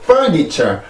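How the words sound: The pitch drops steadily after the first syllable. The speaker calls it wrong. "아예 그 리듬을 죽이고"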